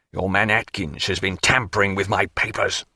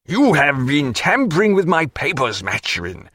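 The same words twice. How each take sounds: First: Lower, contained anger; low angry accusation. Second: High angry burst, sinking on the name; angry accusation. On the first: Canning accusing Maturin's man, darkly angry. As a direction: repeat the charge in a low voice. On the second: Canning flushed, accusing Maturin, angry. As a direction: accuse him hotly, then drop. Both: A narrator's reading. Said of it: "and in his passion".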